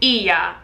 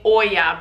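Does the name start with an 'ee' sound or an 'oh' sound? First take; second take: ee; oh. First: The name starts with an 'ee' sound. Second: The name starts with an 'oh' sound. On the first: The speaker calls it right. "but it's Blue Iya" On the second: The speaker calls it wrong. "I was saying Oya"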